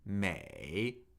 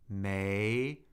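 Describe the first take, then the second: First: The pitch dips low, then rises. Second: The pitch rises from middle to high. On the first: "third tone" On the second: "second tone"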